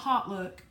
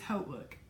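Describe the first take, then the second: First: The first syllable sounds like 'hot'. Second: The first syllable sounds like 'hoat'. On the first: The speaker calls it wrong. "It is not Hot Look" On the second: The speaker calls it right. "it is Holt Look"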